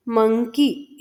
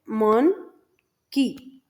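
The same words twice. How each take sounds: First: Said in the usual way. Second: "मन", pause, "की"; split into syllables. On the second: Shown as a demonstration. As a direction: say "मन" and "की" as two separate sounds. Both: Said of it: "इसमें दो syllable कैसे हैं".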